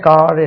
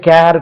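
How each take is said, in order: First: The vowel is a long open 'ah' sound. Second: The vowel is an 'air' sound. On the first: The speaker calls it right. "கார் என்று சொல்றோம்" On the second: The speaker calls it wrong. "வாய்ப்பு உண்டு தப்பா உச்சரிக்கக்கூடியது"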